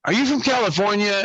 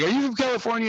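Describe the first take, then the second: First: A hint of a cheesy flirt, higher; lightly voiced smarmy guy asking; mock pickup line. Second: Cheesy flirt, higher; lightly voiced smarmy guy asking; mock pickup line. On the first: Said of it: "He looks at her and says". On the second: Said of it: "So he's like".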